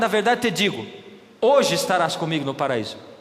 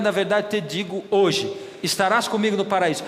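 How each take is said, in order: First: The pause comes before 'hoje'. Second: The pause comes after 'hoje'.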